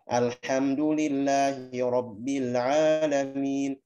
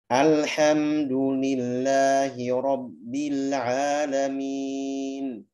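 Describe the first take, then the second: First: It is recited quickly at a brisk tempo. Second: It is recited slowly with every letter clear. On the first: "kalau hadar dia lebih cepat" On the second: "Bacaan dengan tempo yang pelan"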